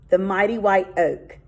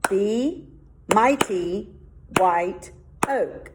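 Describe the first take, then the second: First: Said in the usual way. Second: "The mighty white oak" broken apart with a pause before each word; syllable by syllable. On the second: Shown as a demonstration. Teacher counting five syllables for the class, one by one. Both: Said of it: "there's my five syllables".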